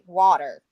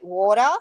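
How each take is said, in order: First: It is said with an American accent. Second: It is said with an Australian accent.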